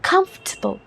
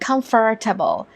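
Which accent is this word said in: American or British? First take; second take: British; American. First: British accent with a strongly stressed first syllable. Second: American accent with a strong, exaggerated r sound. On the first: "यू के accent में खा खा खा sound में ज्यादा emphasis डलेगा" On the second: "US या American accent में आर को थोड़ा ज़्यादा हम फोर्स करके कहेंगे"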